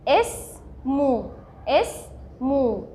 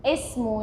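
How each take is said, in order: First: "اسمو" very slow, a gap after the first syllable; teacher breaking "اسمو" into slow, distinct syllables; split into syllables. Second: Said in the usual way. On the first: Shown as a demonstration. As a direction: sound out "اسمو" in two separate parts. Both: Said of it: "فهنقولها ايه".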